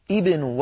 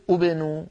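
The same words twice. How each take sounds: First: ابنوا said as ibnu, starting with a kasra; initial kasra. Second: ابنوا said as ubnu, wrongly starting with u; wrong damma start. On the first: Teacher shows the correct start of ابنوا, with kasra. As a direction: begin ابنوا with i, not u. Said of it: "لو أردنا أن نبدأ نقول ابنوا". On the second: Teacher shows the mistake in ابنوا, starting with u. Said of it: "ولا نقول ابنوا". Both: Shown as a demonstration.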